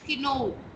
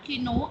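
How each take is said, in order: First: The final vowel is long. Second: The final vowel is short. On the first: The speaker calls it right. "It is kino" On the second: The speaker calls it wrong. "it is not kino"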